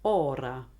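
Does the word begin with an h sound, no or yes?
no. The word begins without an h sound.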